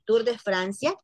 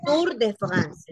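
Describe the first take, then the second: First: Said in the usual way. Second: "Tour de France" with guttural French r; French-accented "Tour de France"; French pronunciation. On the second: Shown as a demonstration. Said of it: "así se llama".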